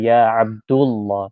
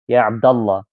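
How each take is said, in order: First: The vowel after 'Abd' is 'u'. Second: The vowel after 'Abd' is 'a'. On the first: The speaker calls it wrong. "That's why we don't say Ya Abdullah" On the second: The speaker calls it right. "We say Ya Abda, Ya Abdallah"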